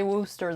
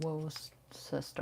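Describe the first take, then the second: First: "Worcester" said as WUSS-ter; local pronunciation. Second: "Worcester" slowly sounded out with a SESS-ter ending; as spelled. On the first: Teaching co-host the local name, "Worcester" as WUSS-ter. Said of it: "We say Worcester, though it's spelled". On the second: Showing how it's spelled, "Worcester" slowly as wor-SESS-ter. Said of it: "though it's spelled Worcester". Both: Shown as a demonstration.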